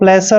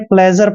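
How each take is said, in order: First: The middle consonant is a hissing s sound. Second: The middle consonant is a buzzing zh sound. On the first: The speaker calls it wrong. "इसको प्लेसर नहीं पढ़ना है" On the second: The speaker calls it right. "आपने प्लेजर पढ़ना है"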